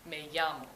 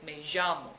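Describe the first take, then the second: First: The ll sounds like a soft English Y. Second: The ll sounds like a strong English J.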